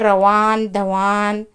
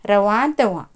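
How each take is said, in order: First: The final n is pronounced as a full consonant. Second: The final n is only a light nasal sound. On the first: The speaker calls it wrong. "हमें ये नहीं कहना कि रवान धवान, इसे नहीं कहना है।" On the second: The speaker calls it right. "लास्ट में आवाज़ हमारी हल्की आएगी, यानी कि आवाज़ नहीं आएगी।"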